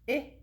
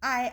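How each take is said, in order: First: The vowel is the short sound, as in insects. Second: The vowel is the long sound, as in ice. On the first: "the short I, I, I sound" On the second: "Ice starts with I"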